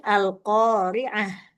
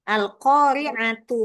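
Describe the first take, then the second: First: The word ends with a soft h sound. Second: The word ends with a t sound and vowel. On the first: The reader stops after this word. "Tapi kalau wakof menjadi al-qari'ah" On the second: The word runs on into the next word. "Ketika disambung tetap dibaca tak?"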